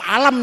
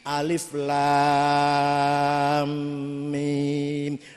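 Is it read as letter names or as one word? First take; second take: one word; letter names. First: The letters are run together as one word. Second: Each letter name is said in full, drawn out. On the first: The speaker calls it wrong. "tak waca alam niku" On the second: The speaker calls it right. "alif lam mim mad lazim kilmi musaqqal"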